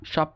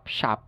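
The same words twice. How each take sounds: First: British সপ with rounded O; British pronunciation. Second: American সাপ (shop) as SHAHP; American pronunciation. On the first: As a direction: say সপ as SHOP, lips rounded. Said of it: "ব্রিটিশরা যেসব জায়গায় অ". (সপ-এ অ, British উচ্চারণ) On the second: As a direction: open AH in সাপ. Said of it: "উচ্চারণ করে আ". (সাপ-এ আ, American উচ্চারণ) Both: Shown as a demonstration.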